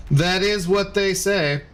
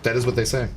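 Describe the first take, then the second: First: Slow, weighty pronouncement; mock solemn. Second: Said in the usual way. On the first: Streamer repeating chat's myth, slow mock-solemn intoning. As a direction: intone it like an old saying.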